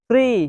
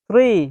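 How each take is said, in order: No difference in how they are said.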